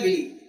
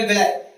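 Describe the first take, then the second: First: विली said as vil-lee, ending on a long ee sound; said villi. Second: विलाय said as vil-lie, ending on an eye sound; said villai. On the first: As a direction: say विली with a clear ee at the end. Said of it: "कई लोग इसको विली कहते हैं". (विली को "विली" बोलें, आख़िर में लंबी ई) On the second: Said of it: "कई लोग विलाय कहते हैं". (विलाय को "विलाय" बोलें, आख़िर में आय की आवाज़) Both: Shown as a demonstration.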